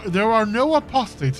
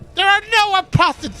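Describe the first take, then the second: First: The voice is calm and soothing. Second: The voice is piercing and overwhelming. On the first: "I'm reading him like very calm and soothing" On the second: "It should be more like"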